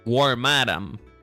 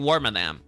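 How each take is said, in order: First: The stress falls on the last part, madam. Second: The stress falls on the first part, worm. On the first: The speaker calls it right. "you're supposed to accentuate the word madam, not the not the worm" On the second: The speaker calls it wrong. "not Wormadam"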